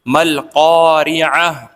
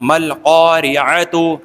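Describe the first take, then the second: First: The last word ends with a soft 'h'. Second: The last word ends with a 'tu' sound. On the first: This is the form used when stopping. "ता को बिल्कुल खत्म करके हा को साकिन कर देंगे" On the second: This is the form used when reading on. "जो ऊपर पढ़ी हमने वो"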